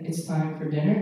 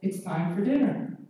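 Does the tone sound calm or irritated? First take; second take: calm; irritated. First: It is said in a flat, matter-of-fact tone. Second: It is said in an irritated, emphatic tone. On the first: The request is simply restated without blame. "sounds weird, sounds odd" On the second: The listener is blamed for not responding the first time. "What's more normal is, I said, ... can you hear the tone?"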